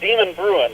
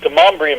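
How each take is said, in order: First: The name is said as 'demon bruin'. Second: The name is not said as 'demon bruin'. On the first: The speaker calls it wrong. "it's not Demon Bruin. I, that's how I said it when I first got here" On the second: The speaker calls it right. "it's Demonbreun"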